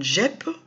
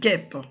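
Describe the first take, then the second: First: The first consonant is a soft zh sound. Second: The first consonant is a hard g sound. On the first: The speaker calls it wrong. "G suivi normalement de E, ça nous donne gep" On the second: The speaker calls it right. "on a mis le U avant le E pour nous casser le son et nous donner ge"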